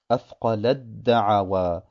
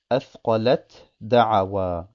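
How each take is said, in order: First: The final t merges into the following d. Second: The final t is pronounced separately before d. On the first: The speaker calls it right. "liest man das" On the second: The speaker calls it wrong. "es wäre falsch zu lesen"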